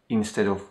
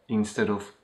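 The two takes are said the same way.

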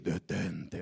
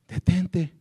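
First: It is said in a dramatic, imposing voice. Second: It is said in a simple, plain voice.

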